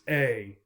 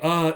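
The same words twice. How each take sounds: First: The word is said with a full, clear vowel. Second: The word is said with a weak, reduced vowel. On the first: The speaker is stressing it or speaking in public. "if we want to stress something ... we will often use a" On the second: This is everyday casual speech. "a is the most common"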